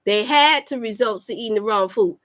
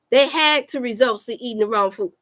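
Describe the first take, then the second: No difference in how they are said.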